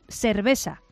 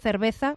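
First: It is said with old Málaga seseo or ceceo. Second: It is said with standard Castilian pronunciation.

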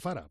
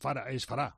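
First: The stress is on the first syllable. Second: The stress is on the last syllable. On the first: The name is written with an accent mark. "Si llevara tilde, que no se la ponen, sería Fará" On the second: The name is written without an accent mark. "Si no lleva tilde, es Fará, porque acaba en consonante"

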